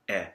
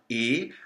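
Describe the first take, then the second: First: The vowel is an open e sound. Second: The vowel is a closed e sound. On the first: The speaker calls it wrong. "as opposed to the epsilon more open sound" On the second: The speaker calls it right. "it's a closed E sound"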